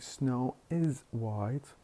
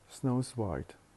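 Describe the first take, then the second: First: The word 'is' is said in full. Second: The 's' is joined onto 'snow'. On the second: "we drop the vowel I and we attach the s to the subject"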